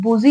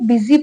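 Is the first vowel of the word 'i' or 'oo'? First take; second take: oo; i. First: The first vowel sounds like 'oo'. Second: The first vowel sounds like 'i'. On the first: The speaker calls it wrong. "बुजी नहीं पढ़ेंगे" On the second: The speaker calls it right. "बिजी पढ़ेंगे"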